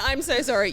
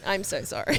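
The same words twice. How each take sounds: First: Laughing, louder flustered apology. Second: Said in the usual way. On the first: Retold or imitated. Teen apologising to a drug buyer while laughing. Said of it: "I went". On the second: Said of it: "I was like".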